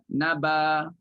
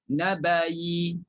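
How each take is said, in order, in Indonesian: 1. Kata ini berakhir dengan a panjang biasa. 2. Kata ini berakhir dengan y yang sedikit bervokal. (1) "Ibdal hamzah jadi alif" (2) "bunyikan yi itu, ha, iaitu dengan kadar raum satu per tiga harakah"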